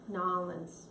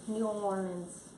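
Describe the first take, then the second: First: The name is squeezed into one short word. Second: The name is said fully as separate words. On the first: A local is saying it. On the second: An outsider is saying it.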